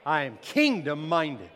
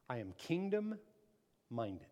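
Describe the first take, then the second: First: Loud, emphatic declaration; preacher's forceful rallying cry; like you mean it. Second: Slow, soft, measured statement; understated declaration. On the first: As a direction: declare it with full conviction. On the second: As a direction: say it slowly and quietly, word by word. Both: Shown as a demonstration. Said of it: "say it like you mean it".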